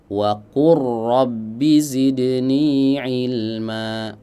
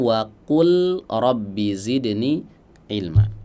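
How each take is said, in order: First: The l is merged into the following r. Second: The l is kept before the following r. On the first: The speaker calls it right. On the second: The speaker calls it wrong.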